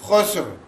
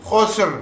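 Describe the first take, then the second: No difference in how they are said.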